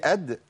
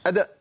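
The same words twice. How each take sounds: First: أد ending on a vowelless d with a brief echo; أد, still final d, released lightly; correct qalqala. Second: أد with an extra "a" after the d, like "adda"; overdone qalqala. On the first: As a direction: bounce the d of أد without adding a vowel. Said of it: "مش أد، لا". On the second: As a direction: push the bounce of أد into a fatha. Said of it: "إن أنا أبالغ في القلقلة". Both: Shown as a demonstration.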